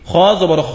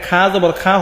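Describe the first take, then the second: First: The vowel is a rounded, 'o'-like sound. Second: The vowel is an open, flat 'a' sound. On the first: The speaker calls it right. "উচ্চারণটা কি খ জবর খ" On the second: The speaker calls it wrong. "এখানে খা জবর খা হবে না"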